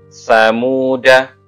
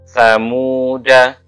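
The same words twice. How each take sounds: Both takes have the same delivery.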